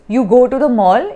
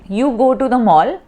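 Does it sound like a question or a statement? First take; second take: question; statement. First: It is said with questioning intonation. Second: It is said with plain statement intonation. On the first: It asks whether the person goes. "when I modulate my voice, ... it sounds like a question" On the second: It states a fact. "when I say"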